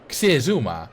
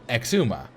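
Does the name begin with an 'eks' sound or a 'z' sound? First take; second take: z sound; eks sound. First: The name begins with a z sound. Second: The name begins with an eks sound. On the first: The speaker calls it wrong. "That's not how you pronounce it" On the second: The speaker calls it right. "You pronounce it Exuma"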